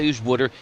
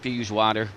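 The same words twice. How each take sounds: First: It is said in a Philadelphia accent. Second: It is said in a New York accent. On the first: "In Philadelphia" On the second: "In New York"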